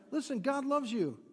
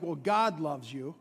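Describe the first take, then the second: First: Reassuring. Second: Grudging, lower, with a laugh. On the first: Pastor showing how to assure a neighbour, reassuring. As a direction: assure them gently, meaning it. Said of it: "but just assure them". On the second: Pastor mocking a grudging blessing to a sister, grudging. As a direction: say it like you barely mean it. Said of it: "You might want to say it like". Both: Shown as a demonstration.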